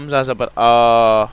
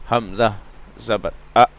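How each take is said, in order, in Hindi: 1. अंतिम स्वर लंबा खींचा जाता है। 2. अंतिम स्वर अचानक काट दिया जाता है। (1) "पहले हम स्ट्रेच कर रहे थे, खींच रहे थे, लंबा कर रहे थे" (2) "ये भी गलत है, क्योंकि हम झटका दे रहे हैं"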